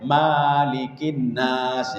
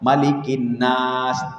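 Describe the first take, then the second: First: The first vowel of malikin is long. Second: The first vowel of malikin is short. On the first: The speaker calls it wrong. "tidak boleh" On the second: The speaker calls it right. "Mana contohnya yang tidak bisa panjang?"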